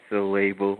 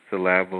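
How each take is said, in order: First: "syllable" said as suh-LAY-bul; shifted accent, long A. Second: "syllable" stressed on LAB, short a; shifted syllable stress. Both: Shown as a demonstration. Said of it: "put the accent on another".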